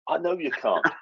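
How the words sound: The tone sounds warm and empathetic. The speaker calls it right. "you've got to get the tone right"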